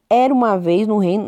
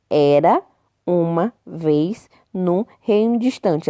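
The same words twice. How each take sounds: First: Said in the usual way. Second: "era", "uma", "vez", "no", "reino" each set apart; words separated. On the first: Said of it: "palavras estão todas juntas". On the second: Shown as a demonstration. Teacher showing where the spaces go, "era uma vez no reino" word by word. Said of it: "seis palavras aí separadinhas".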